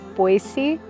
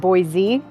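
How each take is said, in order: First: The middle consonant is a soft S sound. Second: The middle consonant is a buzzing Z sound. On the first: This is how locals say the city's name. The speaker calls it right. "with a soft C" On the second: This is how a newcomer says the city's name. The speaker calls it wrong. "as if there was a Z in the spelling"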